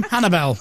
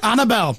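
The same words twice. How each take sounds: First: "Hannah Bell" with a clear break between the two words; correct pronunciation. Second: "Annabelle" run together as one word; wrong pronunciation. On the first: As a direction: keep "Hannah" and "Bell" apart. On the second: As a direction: slur it into "Annabelle". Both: Shown as a demonstration. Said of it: "No, Hannah Bell".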